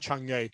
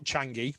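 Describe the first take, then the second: First: The name ends in an 'uh' vowel sound. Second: The name ends in an 'ee' vowel sound. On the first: The speaker calls it right. "as it's pronounced, Chang'e or Chang'e" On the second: The speaker calls it wrong. "not Changi"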